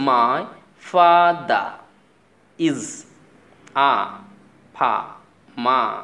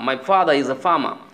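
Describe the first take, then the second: First: The r sounds after vowels are dropped. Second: The r sounds after vowels are pronounced. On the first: "আমি কিন্তু বলেছি" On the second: "আপনি বললেন my ফাদার is a ফার্মার"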